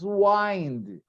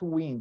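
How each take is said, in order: First: It is pronounced the way the verb sounds. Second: It is pronounced the way the noun sounds. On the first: It means to turn or tighten something. The speaker calls it right. "But the verb is wind" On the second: It means moving air. The speaker calls it wrong. "it's not wind. Wind is not a verb, it's a noun"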